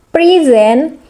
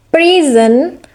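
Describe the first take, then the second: First: "present" as a verb, stress on SENT; second-syllable stress. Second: "present" as a noun, stress on PRE; first-syllable stress. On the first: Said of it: "stress on the second syllable". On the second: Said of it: "this is a stress on the first syllable". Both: Shown as a demonstration.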